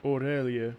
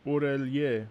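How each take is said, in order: Both takes have the same delivery.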